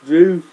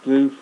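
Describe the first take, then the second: First: Pained cry. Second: Said in the usual way. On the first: Real, not acted. Mouth burning from leek.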